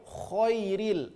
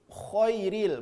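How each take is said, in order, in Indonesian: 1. Bunyi kh diikuti vokal tebal, bulat o. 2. Bunyi kh diikuti vokal tebal, bulat o.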